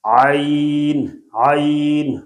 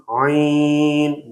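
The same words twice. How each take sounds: First: Said in the usual way. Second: عین held long and sent through the nose; nasalized vowel. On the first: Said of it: "بالکل غلط ہو رہا ہے". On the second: Shown as a demonstration. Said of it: "ناک میں آواز جا رہی ہے".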